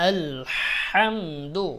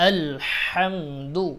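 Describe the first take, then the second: No difference in how they are said.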